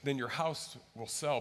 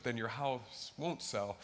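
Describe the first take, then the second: First: Said in the usual way. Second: Slow, lower, with won't leaned on; stress on won't. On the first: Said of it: "if you have enough faith". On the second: Shown as a demonstration. Pastor warning the faithless, slow with won't stressed. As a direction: drag out "then your house won't sell" with weight on won't. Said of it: "if you don't have enough faith".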